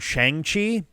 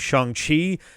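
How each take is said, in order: First: The first syllable has an ang vowel. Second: The first syllable has an ong vowel. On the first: The speaker calls it wrong. "maybe it's not pronounced like that" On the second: The speaker calls it right. "it's more of an ong sound"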